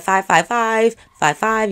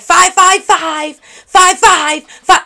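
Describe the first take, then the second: First: The number is said at normal volume. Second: The number is yelled out loudly.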